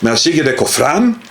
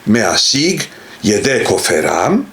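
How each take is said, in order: First: No vowel is sounded between f and r. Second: A short vowel is sounded between f and r. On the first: The speaker calls it wrong. "in Israeli Hebrew, you would say" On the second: The speaker calls it right.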